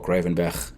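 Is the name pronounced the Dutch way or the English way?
Dutch. The name is pronounced the Dutch way.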